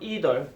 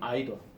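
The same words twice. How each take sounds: First: It is said in an American accent. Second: It is said in a British accent. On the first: "미국식 발음" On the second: "영국식 발음"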